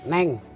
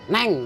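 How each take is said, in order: First: It is said in an ordinary, gentle tone. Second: It is said in a hard, forceful tone. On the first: "Kan itu biasa" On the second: "Tekanan nadanya tuh keras"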